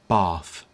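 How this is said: It is said in a Southern British accent. "someone with a standard Southern British English accent might pronounce this object as bath"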